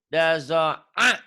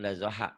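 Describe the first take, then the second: First: The middle consonant is a tight throat sound. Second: The middle consonant is a breathy h sound. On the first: The speaker calls it right. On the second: The speaker calls it wrong. "Bukan dazoha"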